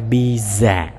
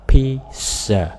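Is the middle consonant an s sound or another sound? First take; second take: another sound; s sound. First: The middle consonant is not an s sound. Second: The middle consonant is an s sound. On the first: The speaker calls it wrong. "không phải pizza" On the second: The speaker calls it right. "chữ này mình đọc là pizza. Âm sờ các bạn"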